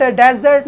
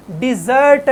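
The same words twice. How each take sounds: First: डेजर्ट with an open "e" in the first syllable; डेजर्ट said "dezert", like the word for sand desert; wrong pronunciation. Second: डिजर्ट with a short "i" in the first syllable; डिजर्ट said "dizert", stress on the second syllable; correct pronunciation. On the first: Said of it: "डेजर्ट नहीं पढ़ना". (डेजर्ट का गलत उच्चारण, पहले अक्षर में "ए") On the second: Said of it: "इसको आपने डिजर्ट पढ़ना है". (डिजर्ट का सही उच्चारण, पहले अक्षर में छोटा "इ") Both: Shown as a demonstration.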